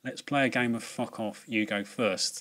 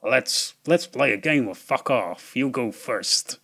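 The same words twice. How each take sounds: First: Said in the usual way. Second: Gerard Butler's gruff American action-hero drawl, slowing at the end; a hammed-up American hero quip, louder; mock American movie accent. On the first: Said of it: "and puts the phone down". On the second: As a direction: growl it like a cheesy action hero on the phone. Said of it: "this is Gerard Butler with an American accent".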